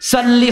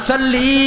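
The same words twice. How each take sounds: First: The final vowel is short. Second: The final vowel is drawn out long. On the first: It addresses a man. The speaker calls it right. "সাল্লি হলো ওয়াহিদে মুযাক্কারে হাজির" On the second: It addresses a woman. The speaker calls it wrong. "সিগায় আমার টান দিলে মহিলা হয়ে যাইব।"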